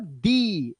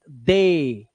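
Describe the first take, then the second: First: The word ends with an 'ee' vowel. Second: The word ends with an 'ay' vowel. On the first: The speaker calls it wrong. "This is not दी" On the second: The speaker calls it right. "एक ही आवाज"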